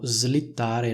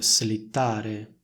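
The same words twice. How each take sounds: First: The s is voiced, like a z sound. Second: The s is voiceless, separate from the l. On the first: The speaker calls it right. "di nuovo diciamo slittare" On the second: The speaker calls it wrong. "non slittare"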